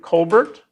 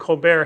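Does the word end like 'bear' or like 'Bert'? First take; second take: Bert; bear. First: The word ends like 'Bert', with a final t. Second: The word ends like 'bear', with no final t. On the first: It refers to the BERT model. "you can also pronounce it Colbert. It's your choice, because the BERT there is the BERT model" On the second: It plays on a talk show host's name. "he pronounces it Colbert because Stephen Colbert has a show"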